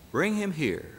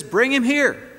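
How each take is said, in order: First: Said in the usual way. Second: Loud, high angry order; master's furious summons; angry command. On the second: Acted. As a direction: summon him in fury.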